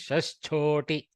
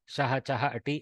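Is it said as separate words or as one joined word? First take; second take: one word; separate words. First: It is run together as one word. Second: It is said as three separate words. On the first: The speaker calls it right. "In Panini's mouth, it is Shashchoti. One word" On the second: The speaker calls it wrong. "it is not Shaha Chaha Ati"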